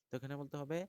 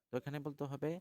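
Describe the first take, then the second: No difference in how they are said.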